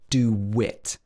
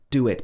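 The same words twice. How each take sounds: First: The two words are joined with a w sound. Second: The two words are said without a linking w.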